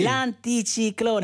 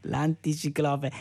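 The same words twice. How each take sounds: First: L'anticiclone said slowly, corrected; correct word, slow. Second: L'anticiclope said slowly with a laugh, the wrong word. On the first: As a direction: stress each syllable of L'anticiclone slowly. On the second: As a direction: repeat L'anticiclope slowly, amused. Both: Shown as a demonstration.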